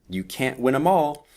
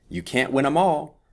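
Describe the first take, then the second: The two takes are said the same way.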